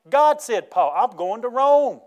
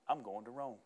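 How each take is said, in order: First: Loud, high preaching, building to a drawn-out cry; triumphant declaration. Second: Low, hushed statement; understated, soft-spoken certainty; quiet resolve. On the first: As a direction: proclaim it with rising conviction. Preacher declaring Paul's resolve, building. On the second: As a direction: say it softly, as a settled fact. Paul's resolve after the shipwreck. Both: Acted.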